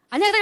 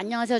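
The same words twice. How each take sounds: First: The greeting is high, loud and energetic. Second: The greeting is low, flat and hesitant. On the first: The speaker calls it right. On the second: The speaker calls it wrong.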